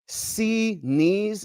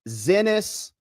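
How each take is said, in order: First: The name is said like 'See-knees'. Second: The name is said like 'Zee-nus'. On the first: This is the owner's own official pronunciation. "she pronounces it officially" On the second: The name is twisted on purpose to mock. "we like to say Zenas because it kind of sounds like a male appendage"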